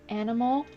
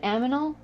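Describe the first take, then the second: First: The n sound comes before the m. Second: The m sound comes before the n. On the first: The speaker calls it right. "I couldn't say animal" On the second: The speaker calls it wrong. "I said aminal"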